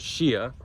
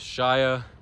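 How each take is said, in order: First: The name is said with Spanish pronunciation. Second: The name is said with English pronunciation. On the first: "Spanish way, because it is a Spanish created token" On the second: "the American and English way is"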